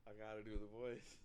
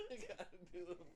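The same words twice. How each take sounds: First: Said in the usual way. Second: Much higher, laughing put-on voice; put-on Deion voice. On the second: Shown as a demonstration. Host trying out the Deion voice, high and giggly. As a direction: squeak it out in the silly character voice.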